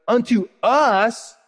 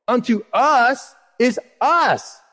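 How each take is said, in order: First: "us" drawn out slow and heavy; slow, weighty "Unto us"; stress on us. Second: Both "us" slow and pressed; slow, deliberate "Unto us is us"; stress on us. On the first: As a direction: linger on the word "us". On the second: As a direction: lean hard on each "us". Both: Shown as a demonstration. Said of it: "stresses us in verse".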